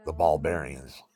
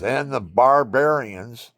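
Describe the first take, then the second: First: Said in the usual way. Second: Loud and slow, the pitch climbing on "barbarians"; grand statement. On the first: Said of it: "Everybody laughed". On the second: Retold or imitated. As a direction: draw out "barbarians" like a big proclamation. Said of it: "and I says".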